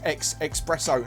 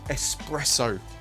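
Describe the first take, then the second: First: The word starts with an 'ex' sound. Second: The word starts with an 'es' sound. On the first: The speaker calls it wrong. "I always pronounce it as ex espresso" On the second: The speaker calls it right. "but I do try"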